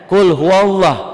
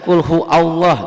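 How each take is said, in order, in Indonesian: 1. Hu disambung ke Allah dengan bunyi W. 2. Hu dan Allah dibaca sebagai dua kata terpisah.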